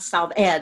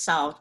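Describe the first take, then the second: First: The name ends with an extra 'ed' syllable. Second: The name is said as the plain word 'solved'. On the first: The speaker calls it wrong. "it's not solved ed" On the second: The speaker calls it right. "it's solved"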